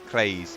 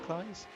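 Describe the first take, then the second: First: The vowel sounds like the 'ay' in 'day'. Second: The vowel sounds like the 'i' in 'eyes'. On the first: This is how a colleague keeps saying it. The speaker calls it wrong. "but he still says Clays" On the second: This is how the speaker thinks it should be said. The speaker calls it right. "like the I in eyes"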